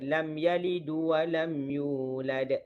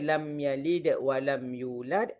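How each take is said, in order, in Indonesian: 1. Yalid berakhir dengan vokal u tambahan. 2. Yalid berakhir pada konsonan d.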